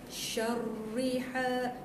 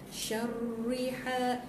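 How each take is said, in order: The two takes are said the same way.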